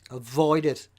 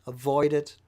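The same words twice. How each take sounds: The two takes are said the same way.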